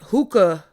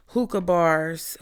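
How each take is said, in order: First: "hookah" repeated, punched louder with a falling tune; stress on hookah. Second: Said in the usual way. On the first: Shown as a demonstration. Vlogger warning viewers off hookah bars, "hookah" punched louder. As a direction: hit "hookah" hard, singling it out.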